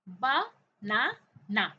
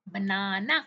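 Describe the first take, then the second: First: banana in three loud, separate beats, ब, ना, ना; syllable by syllable. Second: Said in the usual way. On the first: Shown as a demonstration. Teacher helping children count syllables, syllable by syllable. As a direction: break banana slowly with a pause after each syllable. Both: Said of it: "आपने count किए कितने syllable".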